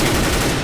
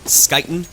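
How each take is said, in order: First: The name begins with a soft h-like sound. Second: The name begins with a hard sk sound. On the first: The speaker calls it right. "S K Y is pronounced like H U E" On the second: The speaker calls it wrong. "it's not Skyten"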